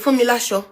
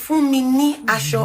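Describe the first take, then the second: First: The word ni is reduced to an l. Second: The word ni is said in full. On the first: "when you contract it, you can say Fumilasho" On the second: "This is Fumini Asho"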